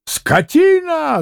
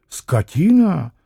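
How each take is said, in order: First: High, drawn-out cry of insult; high-pitched indignant bellow; outraged yell. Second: Slow, contained echo of an insult; drawn-out challenging question; scornful echo. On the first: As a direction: yell it in a soaring voice. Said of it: "заорал было пан Врублевский". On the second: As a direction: throw the word back, unhurried. Landlord throws the insult back. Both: Acted.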